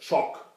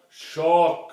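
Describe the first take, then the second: First: The word is said at normal speed. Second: The word is said very slowly.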